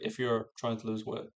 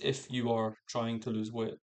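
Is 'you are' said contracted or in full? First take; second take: contracted; full. First: 'You are' is contracted to one short syllable. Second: 'You are' is said as two full words. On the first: The speaker calls it right. "They'll just be like" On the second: The speaker calls it wrong. "people don't talk like that"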